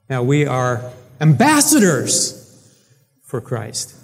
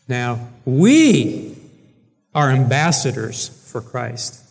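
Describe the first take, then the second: First: The stress is on "are". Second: The stress is on "we".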